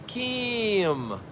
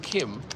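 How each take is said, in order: First: The vowel in the name is drawn out long. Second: The vowel in the name is short and plain. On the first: This is how local people say the name. "It's this elongated name" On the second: This is the ordinary way to say the name. "It's not Kim"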